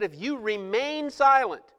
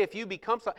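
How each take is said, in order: First: "remain" stretched out as the key word; stress on remain. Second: Said in the usual way. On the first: Shown as a demonstration. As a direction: lean hard on "remain". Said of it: "he said". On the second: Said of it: "he didn't say".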